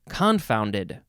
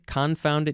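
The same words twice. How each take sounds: First: The stress is on the first syllable. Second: The stress is on the second syllable. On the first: "or you can emphasize the first syllable" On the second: "you can say con- confounded"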